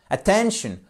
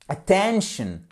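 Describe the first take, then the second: No difference in how they are said.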